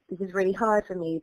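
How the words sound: It has a British accent with dropped r sounds. "as an English person, I don't pronounce my R's. It'd be"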